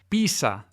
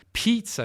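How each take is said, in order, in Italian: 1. Si pronuncia con accento spagnolo. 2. Si pronuncia con accento inglese. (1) "da alcuni, non tutti, parlanti di spagnolo" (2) "in inglese"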